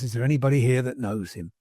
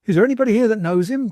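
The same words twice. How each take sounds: First: Said in the usual way. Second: High, loud and fast; frantic high cry to the room; excited cry. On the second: A narrator's reading. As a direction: burst in frantic, calling for help. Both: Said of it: "cried the little man".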